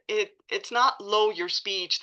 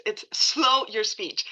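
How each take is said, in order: First: Said in the usual way. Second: Slow stressed, with a small laugh; laughing fix, weight on slow. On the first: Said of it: "That makes no sense". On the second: Shown as a demonstration. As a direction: correct it by leaning on slow. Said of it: "sorry that I have a typo here".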